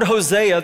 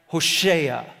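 First: The middle consonant is a plain s sound. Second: The middle consonant is an sh sound. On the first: "when we read this in English" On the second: "that name in Hebrew, was more like Hoshea"

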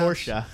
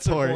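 First: The word is said in a fancy European way. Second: The word is said in a plain ordinary way. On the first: "You are like a European, you know, it's fancy. It's like sounds" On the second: "Instead of"

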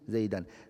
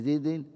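First: The word ends with an added -an. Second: The word ends with an added -in.

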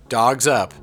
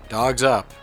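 Both takes have the same delivery.

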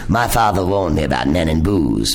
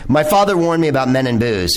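First: It is said in an imitated, put-on voice. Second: It is said in the speaker's ordinary voice.

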